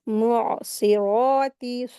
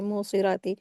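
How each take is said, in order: First: It starts with 'mu' and a clear ain sound. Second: It starts with a plain 'mo' and no ain sound. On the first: The speaker calls it right. "जबकि क्या है" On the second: The speaker calls it wrong. "मो पढ़ते हैं, मो आइन का जबकि मखरज अदा ही नहीं करते हैं"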